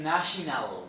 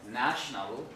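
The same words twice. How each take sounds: First: A short schwa vowel is inserted between n and l. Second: The n and l are syllabic, no vowel between. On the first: "insert some kind of schwa or some short vowel" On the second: "these syllabic consonants are combined"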